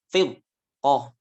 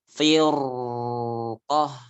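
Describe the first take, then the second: First: The 'r' sound is cut off abruptly. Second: The 'r' sound flows out for too long. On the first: "Atau diputus" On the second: "Jadi bukan firqah"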